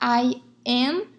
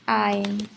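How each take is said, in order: First: Both words are said separately in full. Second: The two words merge into one short syllable. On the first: This is the formal way of saying it. "ao invés de falar I am" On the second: This is the informal way of saying it. "no informal a gente contrai ... É como se pronuncia mais ou menos assim"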